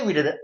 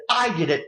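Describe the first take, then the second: First: Said in the usual way. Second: "I did it." with I hit hard and falling; mock boast, I stressed. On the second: Shown as a demonstration. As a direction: lean on "I" in "I did it.". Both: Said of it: "he doesn't say".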